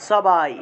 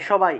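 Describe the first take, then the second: First: The first consonant is an s sound. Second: The first consonant is a sh sound. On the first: This is the Sanskrit way. The speaker calls it right. "সংস্কৃতে বলতে হবে সবাই" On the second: This is the everyday Bengali way. The speaker calls it wrong. "বাংলায় এই এইটাকে বলি আমরা সবাই"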